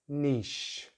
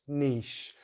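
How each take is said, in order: First: The vowel is long, like 'ee'. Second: The same.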